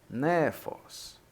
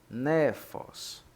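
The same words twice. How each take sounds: Both takes have the same delivery.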